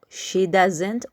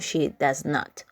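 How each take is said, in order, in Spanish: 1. El verbo se contrae en una sola palabra. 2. El verbo se dice en dos palabras separadas. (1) "en vez de decir" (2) "ustedes pueden decir"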